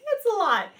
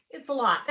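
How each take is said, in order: First: Much higher and louder, laughing it out; overwhelmed and amused; high, loud, laughing complaint; laughing exasperation. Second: Said in the usual way. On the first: Real, not acted. Repeating it through laughter.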